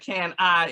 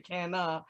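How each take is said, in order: First: The second word is a full 'I' sound. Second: The second word is reduced to 'uh'. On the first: The speaker calls it wrong. "my accent just killing it, and it just, it sounds like" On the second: The speaker calls it right. "it should say"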